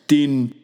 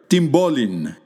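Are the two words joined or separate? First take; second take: separate; joined. First: Two separate words with a plain n and p. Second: Words run together, n and p become mb.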